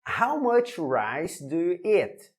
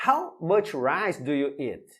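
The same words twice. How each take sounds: First: "How much rice do you eat?" slow and even; slow model question. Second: Said in the usual way. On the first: Shown as a demonstration. Teacher reading the example question slowly to students. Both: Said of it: "Let's go".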